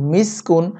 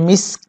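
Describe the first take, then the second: First: The word ends with a vowel and n. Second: The word ends abruptly on a k sound. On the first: The reading continues without stopping. "কাফ দুই পেশ কুন মিসকুন" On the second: The reading stops at this word. "আমরা যদি এখানে অক্ফ করি উচ্চারণটা হবে মিস্ক"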